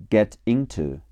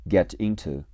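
No difference in how they are said.

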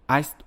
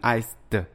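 First: The word ends with a voiceless t sound. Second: The word ends with a voiced d sound. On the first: The speaker calls it right. "它应该是iced，它应该读成t" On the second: The speaker calls it wrong. "不要读成iced，后面加d 不能读成d"

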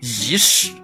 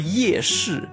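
First: It is said with Zigong dialect sounds. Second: It is said with Standard Mandarin sounds. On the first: "他们会说的是仪式" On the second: "比如说夜市"

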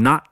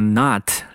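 First: The final t sound is held, not released. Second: The final t sound is fully released.

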